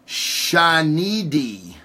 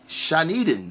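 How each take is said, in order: First: Shanidi drawn out slowly, ending on -di; sounding out Shanidi syllable by syllable; trying a name. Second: Shaniden with a final -den instead of -di; corrected name. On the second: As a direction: settle on Shaniden, ending in -den. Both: Real, not acted. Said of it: "I still butchered it".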